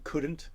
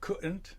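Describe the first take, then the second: First: The D sound in the middle is clearly pronounced. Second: The D sound in the middle is dropped. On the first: "instead of saying couldn't" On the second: "they're dropping their their uh, D's ... like they're in England"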